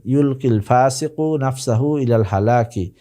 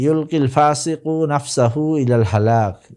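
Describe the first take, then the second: First: হালাকি said with a clear final i sounded; ইলাল হালাকি read through with the full ending; full case ending. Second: হালাক said with the final vowel dropped, ending on a closed k; ইলাল হালাক cut short at the pause, no case ending; pausal ending. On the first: Teacher rereading the Arabic sentence for students, final i on হালাকি. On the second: Teacher reading the Arabic sentence to students, final vowel dropped on হালাক. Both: Shown as a demonstration. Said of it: "reads the Arabic sentence as a model".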